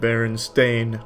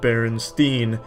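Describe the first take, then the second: First: The last syllable sounds like 'stain'. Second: The last syllable sounds like 'steen'. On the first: This is the official name. "it's always been the Berenstain Bears" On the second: This is the name as many people remember it. "It is Steen, not Stain"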